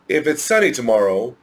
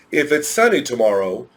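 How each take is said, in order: Both takes have the same delivery.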